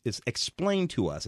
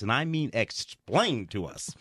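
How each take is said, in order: First: Said in the usual way. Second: "explained" drawn out slowly and leaned on; insisting "I mean explained", slower; stress on explained. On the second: Shown as a demonstration.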